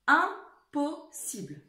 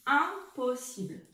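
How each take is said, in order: First: Impossible drawn out slowly, each syllable clear; slow dictation. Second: Slow dictation repeat. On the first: Teacher dictating Impossible slowly to her class. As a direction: stretch Impossible for the pupils. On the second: Teacher repeating Impossible slowly for the class. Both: Shown as a demonstration. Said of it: "écrivez-le celui-ci".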